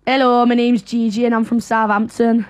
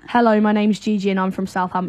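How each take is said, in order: First: Imitated Northern English, letters dropped; Northern English impression. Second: Southern English, h sounded on "hello"; Southern English accent. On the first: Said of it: "I'll do the Northern accent". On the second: Shown as a demonstration. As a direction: switch into your own Southern English accent. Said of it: "then say it in a Southern accent".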